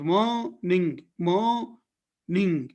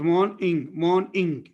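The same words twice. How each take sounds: First: "morning" slowly split as maw / ning; mor-ning division. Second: "morning" split as morn / ing; morn-ing division. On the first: Teacher demonstrating N in the onset, split mor-ning. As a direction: hold the open first syllable of "morning", N starts the second. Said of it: "in the onset of this syllable". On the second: Teacher demonstrating N in the coda, split morn-ing. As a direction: say "morning" with the N closing the first syllable. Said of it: "with O in the coda". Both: Shown as a demonstration.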